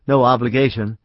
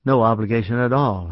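First: Said in the usual way. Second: Faltering voice. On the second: A narrator's reading. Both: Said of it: "his voice faltered".

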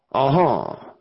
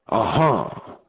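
First: Understated doubtful "ah-ha"; dubious. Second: Understated relieved "ah-ha"; relief. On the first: Gang leader weighs the visitor's hint, mildly dubious. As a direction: say it with a touch of doubt. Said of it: "ejaculated Anson dubiously". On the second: Gang leader hears the awaited horse, mild relief. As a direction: let it out with a touch of relief. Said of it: "exclaimed Snake in relief". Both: A narrator's reading.

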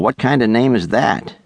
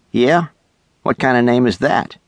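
First: Said in the usual way. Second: Retorting. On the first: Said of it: "the boy asked". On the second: A narrator's reading. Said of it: "Doug retorted".

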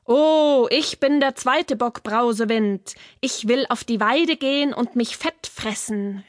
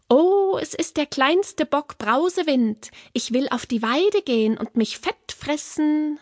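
First: Lightly voiced middle goat, close to natural pitch; not so fine voice. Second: Small goat, high and dainty; very fine voice. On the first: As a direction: call out as a sturdier goat, less dainty. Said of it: "keine so feine Stimme". (nicht so feine, mittlere Bockstimme) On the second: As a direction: speak up high like the littlest goat. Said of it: "mit ganz feiner Stimme". (ganz feine, hohe Böckchenstimme) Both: A narrator's reading.

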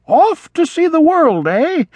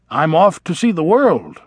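First: Put-on much higher wistful old vole; yearning echo. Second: Said in the usual way. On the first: A narrator's reading. Old vole repeating the young mouse's words, wistful and high. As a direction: echo it with longing and regret. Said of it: "yearning and regret mingling in his voice". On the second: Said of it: "Ragweed announces plans".

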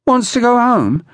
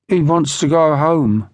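First: High-pitched, incredulous question; mock incredulous echo. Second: Understated, hopeless answer. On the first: Brigg echoes Lantry's explanation, scornfully incredulous. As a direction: throw it back in disbelief, pitched right up. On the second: Lantry explains the crying to Brigg, mildly hopeless. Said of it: "answered Lantry hopelessly". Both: A narrator's reading.

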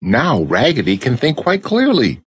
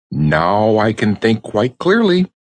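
First: Dolls echoing. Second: Said in the usual way. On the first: A narrator's reading. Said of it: "cried all the dolls". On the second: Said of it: "cried Raggedy Ann".

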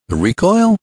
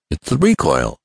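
First: High-pitched, puzzled echo; wondering question. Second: Understated resigned admission; mild despair. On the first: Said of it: "questioned Ned wonderingly". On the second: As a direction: own up to the snag, slightly defeated. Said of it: "with a gesture of despair". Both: A narrator's reading.

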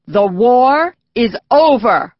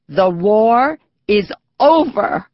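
First: Slow, loud news bulletin; radio announcer. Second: Voice breaking. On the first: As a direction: announce it slowly over the radio. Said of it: "the announcer said". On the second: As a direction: voice cracking on the last word. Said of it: "His voice broke on the last word". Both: A narrator's reading.

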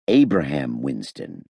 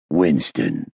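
First: Softer, slower, kindly helpful; charitable. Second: Low warning growl. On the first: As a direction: offer the name gently, slowly. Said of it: "I said charitably". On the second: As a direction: growl the name as a prompt. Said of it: "Hammond growled". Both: A narrator's reading.

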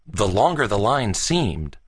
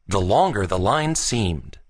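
Both takes have the same delivery.

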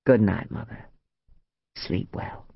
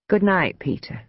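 First: A hint of the son, low-pitched; lightly voiced son. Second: A hint of the mother, pitched up; higher goodnight with a falling end; lightly voiced mother. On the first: Son leaving his mother's room, lightly voiced and lower. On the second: Mother dismissing the son she dislikes, lightly voiced and higher. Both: A narrator's reading.

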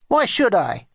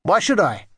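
First: Put-on cross, resistant child's retort; grudging refusal, pitched up. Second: Said in the usual way. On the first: A narrator's reading. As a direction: snap back a little higher. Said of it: "he said crossly".

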